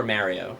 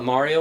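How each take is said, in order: First: First syllable of "Mario" like "marry"; "Mario" starting like the word "mare"; Mario with flat "a". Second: "Mario" rhyming its start with "car"; Mario with broad "ah". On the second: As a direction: say "Mario" as MAH-ree-oh. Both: Shown as a demonstration. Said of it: "did you call it Mario or Mario".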